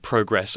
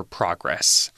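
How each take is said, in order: First: PROGRESS said as PROH-gress, long O; long-O first vowel. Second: PROGRESS said as PRAH-gress, open vowel; open first vowel. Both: Shown as a demonstration. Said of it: "whichever you prefer".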